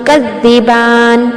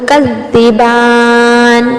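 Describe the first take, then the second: First: The long vowel is held for two beats. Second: The long vowel is held for four beats. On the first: "सिर्फ दो हरकत के बराबर अब लंबा करते हुए" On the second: "ये हो गया तवस्सुत।"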